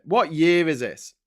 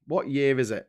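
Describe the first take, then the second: First: "What year is it" louder, higher, drawn out on "year"; exasperated stress on YEAR. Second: Said in the usual way. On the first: Real, not acted. Presenter despairing at Tory regress, "year" stretched in exasperation. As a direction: lean slowly and hard on "year", disbelieving. Repeats the question, more exasperated.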